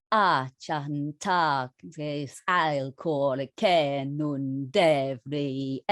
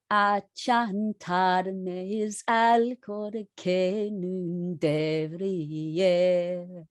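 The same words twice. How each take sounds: First: Chanted, very slow, each syllable held in strict long-short; singing the medieval line in strict mode. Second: Second sung take of the medieval line; slow strict chant. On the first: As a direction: chant the old lyric in rigid rhythm. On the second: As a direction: sing it again stretching every note. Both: Shown as a demonstration. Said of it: "very strictly kept to that dum".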